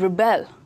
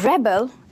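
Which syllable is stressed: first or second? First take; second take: second; first. First: The stress is on the second syllable. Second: The stress is on the first syllable. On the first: It is used as a verb. "This is a verb" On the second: It is used as a noun. "This is a noun"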